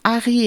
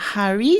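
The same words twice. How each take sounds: First: The word starts without an h sound. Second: The word starts with a breathy h sound. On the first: The speaker calls it wrong. "si vous dites Harry" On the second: The speaker calls it right. "et non pas Harry"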